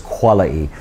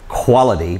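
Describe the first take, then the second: First: It is said in a put-on British accent. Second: It is said in an ordinary American accent.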